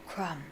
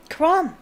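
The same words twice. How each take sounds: First: Soft, awed murmur of the name; a starstruck fan murmuring his hero's name; quiet. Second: "Krum" said higher and louder, insistent; emphatic. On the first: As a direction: say "Krum" softly in awe. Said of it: "said Ron quietly". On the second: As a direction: repeat "Krum" with impatience. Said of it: "said Ron". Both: A narrator's reading.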